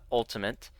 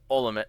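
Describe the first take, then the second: First: The word is said with the t sound. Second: The word is said without the t sound. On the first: This is the usual word. "not Ultimate" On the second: The name was spelled without the letter. "it is Ultimate, ... He forgot to put a T in there"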